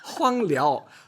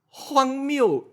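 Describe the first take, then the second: First: The second syllable is pronounced liao. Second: The second syllable is pronounced miu. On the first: The speaker calls it wrong. "但是我就把它说成另外一个字" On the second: The speaker calls it right. "这个是原本要讲的字"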